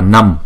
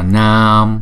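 First: The vowel is held short, for one beat. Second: The vowel is held long, for two beats. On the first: The speaker calls it wrong. "chúng ta không đọc là Nam" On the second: The speaker calls it right. "Hai chữ A này chúng ta phải đọc kéo dài hai nhịp"

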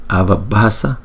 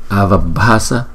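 The two takes are said the same way.

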